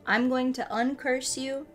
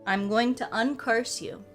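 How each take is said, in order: Both takes have the same delivery.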